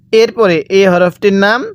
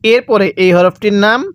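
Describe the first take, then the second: No difference in how they are said.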